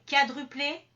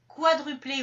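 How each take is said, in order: First: The word begins with a 'ka' sound. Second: The word begins with a 'kwa' sound.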